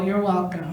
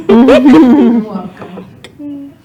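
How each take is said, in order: First: Said in the usual way. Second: "You're welcome" stretched very slow and loud, laughing; milk the "You're welcome" loud and slow. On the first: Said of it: "repeated punchline". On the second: Shown as a demonstration. Comedian to the audience, loud laughing "You're welcome".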